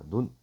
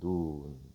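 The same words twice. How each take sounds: First: The vowel is said short. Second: The vowel is said long. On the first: It means the eye. "짧게 말하면 사람의 눈을 얘기하고요" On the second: It means snow falling from the sky. "조금 길게 말하는 눈"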